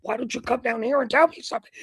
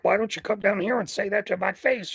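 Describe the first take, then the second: First: Fast, high-pitched mock challenge; more animated challenge. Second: Mildly raised pitch, mock challenge; retold challenge. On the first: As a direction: act out a worked-up call to come down. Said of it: "I'm getting more animated". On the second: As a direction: call someone out, acting it out at normal volume. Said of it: "You know, I'm doing this pantomiming".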